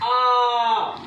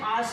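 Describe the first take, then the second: First: The vowel is drawn out for extra length. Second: The vowel is held for a normal long length. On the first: "आ से भी ज्यादा समय लगता आ, इस तरीके से इसको बोला जाता है" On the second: "आ से भी ज्यादा समय"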